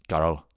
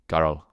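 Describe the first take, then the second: No difference in how they are said.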